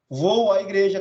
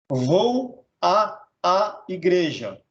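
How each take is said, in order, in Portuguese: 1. Um único som 'a' fundido vem antes de 'igreja'. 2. Dois sons 'a' separados vêm antes de 'igreja'. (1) "craseado. É o certo" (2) "Você não vai falar assim nem escrever assim"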